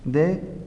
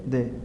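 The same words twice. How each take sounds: First: DE lifted in a rising tone; DE held up, first of a contrasting pair; accented form. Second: De dropped in a falling tone; de let fall, closing the pair; unaccented form. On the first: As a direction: say DE as the accented word, pitch going up. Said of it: "Se acentúa de". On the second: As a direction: say de as the unaccented word, pitch going down. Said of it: "No acentúes de". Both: Shown as a demonstration.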